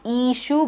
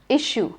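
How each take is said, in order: First: The first vowel is drawn out long. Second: The first vowel is kept short. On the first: The speaker calls it wrong. "It is not issue" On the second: The speaker calls it right. "but issue"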